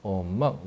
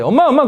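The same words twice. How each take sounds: First: Low, soft call to mom; low-toned child. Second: High, eager call to mom; high-pitched child. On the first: Child speaks to mom in a low, soft tone. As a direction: call mom quietly, well down in pitch. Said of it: "이 음조가 엄청 중요해". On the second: Kids call mom, speaking high. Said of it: "애들이 높게 말해". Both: Acted.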